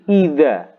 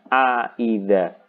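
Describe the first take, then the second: First: The word starts directly with 'idza', no 'a'. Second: An extra 'a' sound comes before 'idza'. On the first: It is read as a statement. "a-nya hilang" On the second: It is read as a question. "ada istifhamnya"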